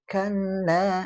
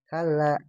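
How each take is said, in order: First: The double l is held long. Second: The double l is said short. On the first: The speaker calls it right. "ditahan ya" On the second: The speaker calls it wrong. "Kadang dibaca kalla"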